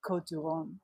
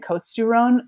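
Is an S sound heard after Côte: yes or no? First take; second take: no; yes. First: No S sound is pronounced after Côte. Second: An S sound is pronounced after Côte. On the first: The speaker calls it right. "you don't say the S" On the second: The speaker calls it wrong. "she kept calling it"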